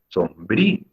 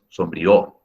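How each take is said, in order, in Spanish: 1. La i es tónica y se separa de la o. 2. La i y la o se unen en una sola sílaba. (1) "¿cómo debo pronunciar brío? Sombrío" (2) "no es sombrío"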